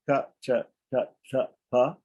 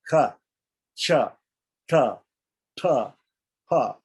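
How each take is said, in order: First: The consonants are said without a puff of air. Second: The consonants are said with a puff of air. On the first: "instead of" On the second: "we add more air"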